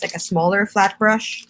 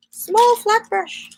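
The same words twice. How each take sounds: First: Said in the usual way. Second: High, slow sing-song murmur; sing-song to herself hunting for the brush. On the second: Pretend. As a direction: stretch it up high and slow like a little tune. Repeats brush name, searching.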